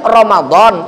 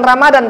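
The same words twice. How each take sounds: First: The d sound is a heavy emphatic d. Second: The d sound is a plain d. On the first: The speaker calls it right. "tapi Ramadan" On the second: The speaker calls it wrong. "bukan Ramadan"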